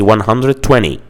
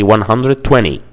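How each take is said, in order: First: It is said with a relaxed American pronunciation. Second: It is said with a relaxed American pronunciation.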